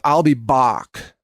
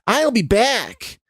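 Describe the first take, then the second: First: It is said with an Austrian accent. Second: It is said with a Chicago-style accent.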